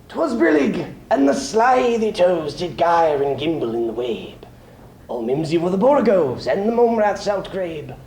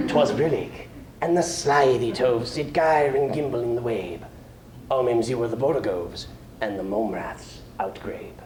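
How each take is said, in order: First: Brisk, higher, whimsical nonsense verse; playful poem reading. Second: Softer, lower, fading reprise; soft closing verse. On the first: Opening Jabberwocky for the audience, playful recitation. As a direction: relish the made-up words. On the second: Closing Jabberwocky for the audience, quietly fading. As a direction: let the nonsense verse die away. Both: Acted.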